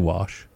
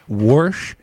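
First: No r sound comes before the sh. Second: An r sound is added before the sh. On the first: It is the ordinary way most people say it. "I just say wash, just like everybody else" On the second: It mocks how some other people say it. "when I'm making fun of people that say it that way"

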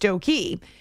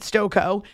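First: The name ends with an 'ee' sound. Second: The name ends with an 'oh' sound. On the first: "is pronounced Stokey" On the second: "like Coco"

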